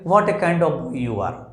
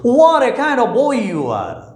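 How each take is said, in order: First: The sentence is said plainly, without expression. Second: The sentence is said with lively, exclamatory expression. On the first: The speaker calls it wrong. "Simple sentence use करें, ... इसमें स्वाद नहीं है" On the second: The speaker calls it right. "बोलने का तरीका ... sentence जो है बहुत स्वादिष्ट हो जाता है"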